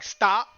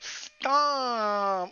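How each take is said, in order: First: It is said flatly and firmly, with finality. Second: It is said teasingly, in a playful, coy tone. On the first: She really wants it to end. "She's not like stop, like full stop" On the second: She doesn't really mean it. "No, she's like, stop"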